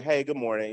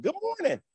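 First: Said in the usual way. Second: Very high, sing-out cheery hello; mock chirpy morning greeting with a smile; smiling greeting. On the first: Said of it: "And then that day they walk in". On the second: Coworker walking in on a normal day, smiling high greeting. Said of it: "normally they walk in and smile".

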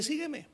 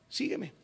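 First: Sígueme said higher and commanding; raised command. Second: Said in the usual way. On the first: Shown as a demonstration. Jesus calls Peter, sígueme pitched up. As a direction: lift sígueme as a call. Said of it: "Jesús le dice". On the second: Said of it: "en el versículo diecinueve".

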